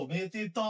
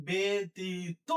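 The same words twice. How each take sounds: First: ব্যতীত ending in an open "taw"; wrong open ending. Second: Slow ব্যতীত ending in rounded "to"; closed o ending. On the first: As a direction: say ব্যতীত as betitɔ, last vowel open. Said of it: "বলি না আমরা". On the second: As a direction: say ব্যতীত as be-ti-to, stretched. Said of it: "বলি". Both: Shown as a demonstration.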